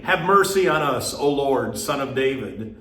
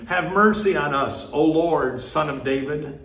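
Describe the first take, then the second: First: Crying out. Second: Pleading cry, pitched higher and pushed harder; crying out louder. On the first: Blind men calling to Jesus by the road, raised plea. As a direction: call out to the passing Lord, begging. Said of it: "cried out". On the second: Blind men crying over the crowd to Jesus, urgent plea. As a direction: beg even more urgently over the hushing crowd. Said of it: "cried out all the more". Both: A narrator's reading.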